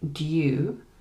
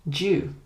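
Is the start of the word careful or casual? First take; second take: careful; casual. First: The word starts with a careful, full D sound. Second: The word starts with a cut, casual D sound. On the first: It sounds formal, like the Queen's English. "in the R P accent, they would say due" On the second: It sounds casual. "you might cut the D and say something like due"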